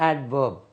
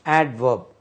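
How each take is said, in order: Both takes have the same delivery.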